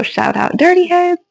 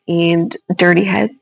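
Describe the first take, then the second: First: Excited shout-out. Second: Said in the usual way. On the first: Real, not acted. Shouting out her favorite band.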